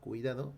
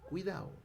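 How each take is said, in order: First: The d between the last vowels is pronounced. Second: The d between the last vowels is dropped. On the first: "en vez de decir" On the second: "elisión de la consonante D entre vocales"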